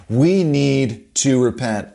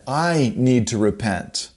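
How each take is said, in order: First: "We" leaned on and drawn out, slower; stress on WE. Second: "I" lifted as the key word; stress on I. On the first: Preacher pressing the congregation, stress on "We". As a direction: hit "We" hard, the rest eased. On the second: Preacher turning the call on himself, stress on "I". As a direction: put the weight on "I", owning it. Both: Shown as a demonstration.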